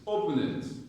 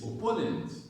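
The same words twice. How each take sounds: First: The stress is on the first syllable. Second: The stress is on the second syllable. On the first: The speaker calls it wrong. "You're stressing O" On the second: The speaker calls it right. "The stress is on po. So it's like this"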